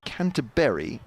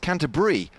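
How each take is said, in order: First: The ending sounds like the fruit word berry. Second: The ending sounds like the cheese word brie. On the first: This is the older local pronunciation. "as in fruit" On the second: This is the newer broadcast pronunciation. "as in cheese"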